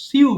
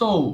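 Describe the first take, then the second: First: The vowel glides from ee to oo. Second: The vowel is a plain long o. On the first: The speaker calls it wrong. "এটাকে মিসপ্রোনাউন্সিং করি আমরা, এটা সিউ বলি" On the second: The speaker calls it right. "But it should be সো"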